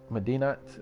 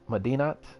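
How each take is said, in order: First: The word ends with a clear T sound. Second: The same.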